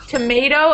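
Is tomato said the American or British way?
American. It is said with an American pronunciation. "It's tomato in American English"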